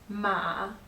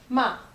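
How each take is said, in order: First: The pitch starts low, then gets higher. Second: The pitch falls sharply from high. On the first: It means horse. "Ma is horse" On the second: It means to scold. "ma is to scold"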